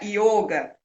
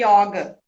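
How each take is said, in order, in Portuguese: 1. O o é uma vogal fechada. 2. O o é uma vogal aberta. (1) "não tem esse som de ó. E aí se pronuncia yoga" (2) "a gente pode acentuar"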